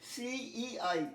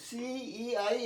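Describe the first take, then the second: No difference in how they are said.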